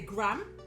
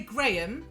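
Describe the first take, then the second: First: It is said with an American pronunciation. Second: It is said with a British pronunciation. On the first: "certain American dialects say Graham" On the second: "So we say Graham"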